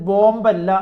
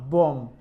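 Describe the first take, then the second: First: The final b sound is pronounced. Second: The final b sound is silent. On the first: The speaker calls it wrong. "ഇത് വായിക്കേണ്ടത് ബോംബല്ല എന്ന് നമുക്കറിയാം" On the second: The speaker calls it right. "ബോം ആണ്, അവസാനത്തെ ബി silent ആണ്"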